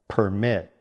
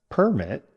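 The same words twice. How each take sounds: First: The stress is on the second syllable. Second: The stress is on the first syllable. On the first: It means to allow something. "Stress on the second syllable" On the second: It is a document giving permission. "Permit is noun"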